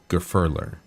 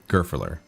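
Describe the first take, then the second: First: The middle syllable carries the stress. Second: The stress is spread evenly across syllables. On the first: The speaker calls it right. "there's emphasis on the fur. It's not even across the board" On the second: The speaker calls it wrong.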